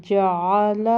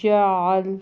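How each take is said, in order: First: جعل as "ja-a-la", final vowel sounded; full-vowel جعل with a throaty ain; careful throat ain. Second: جعل as "ja-al", stopped on a vowelless l; pausal reading. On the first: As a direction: bring the ع of جعل from the throat, open ending. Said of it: "اس کے تلفظ کا خیال کرنا ہے". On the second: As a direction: drop the last vowel of جعل, keep the throaty ain. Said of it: "آگے وقف". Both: Shown as a demonstration.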